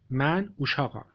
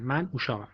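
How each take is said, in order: First: من اوشاقم said clearly in Azerbaijani Turkish; careful teacher's Turkish, من اوشاقم; Turkish pronunciation. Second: من اوشاقم repeated a little softer; Turkish repeat. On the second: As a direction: echo the Turkish line for learners to copy. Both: Shown as a demonstration. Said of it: "بخوایم بگیم من بچه هستم".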